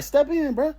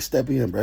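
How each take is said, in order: First: Much higher insistent step in, bro; insistent repeat. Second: Said in the usual way. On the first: Retold or imitated. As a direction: say it again, pitched way up to insist. Repeating the invitation, more insistent.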